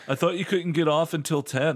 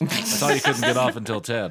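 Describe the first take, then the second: First: It is voiced as a different character. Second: It is voiced as Rayla, the narrator.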